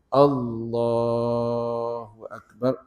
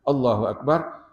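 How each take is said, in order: First: The phrase is drawn out and lengthened. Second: The phrase is said quickly and briefly. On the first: The call lasts the whole movement down to bowing. The speaker calls it right. "kita baca panjang tu daripada berdiri" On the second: The call ends before the movement is finished. The speaker calls it wrong. "bukan Allahu Akbar, belum sampai ke lutut lagi tangan kita"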